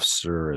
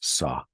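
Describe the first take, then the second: First: The word ends with a clear r sound. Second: The word ends in an open vowel, no r. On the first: "the pronunciation of "sir"" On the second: "is "sa.""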